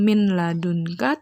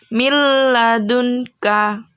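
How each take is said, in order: First: The n is sounded clearly before the l. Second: The n merges fully into the l, unnasalized. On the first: The speaker calls it wrong. "Jadi bukan min ladunka" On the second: The speaker calls it right. "tapi mil ladunka"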